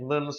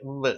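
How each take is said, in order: First: "வ்ன்னு" with a lightly touched v. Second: "வ்வு" with a firmer, pressed w sound. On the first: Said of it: "வி-யை லைட்டா உச்சரிக்கிறோம்". ("வ்ன்னு" லைட்டா உச்சரித்து) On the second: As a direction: lean into the consonant in "வ்வு". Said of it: "டபிள்யூவை கொஞ்சம் அழுத்தமா உச்சரிங்க". ("வ்வு" கொஞ்சம் அழுத்தமா) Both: Shown as a demonstration.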